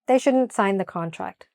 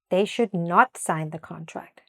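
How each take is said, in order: First: 'Should not' is contracted to one word. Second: 'Should not' is said as two full words. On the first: The negative may not be heard. The speaker calls it wrong. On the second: The negative is clearly heard. The speaker calls it right.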